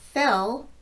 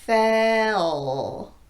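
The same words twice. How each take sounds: First: The word is said at normal speed. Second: The word is said slowly, drawn out.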